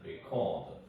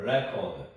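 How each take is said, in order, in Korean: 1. 강세는 두 번째 음절에 있어요. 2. 강세는 첫 번째 음절에 있어요. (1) "동사일 때는 record. / 이 오에 강세가 옵니다" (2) "명사일 때는 record. / record일 때는 re. 여기에 명사 강세가 오고요"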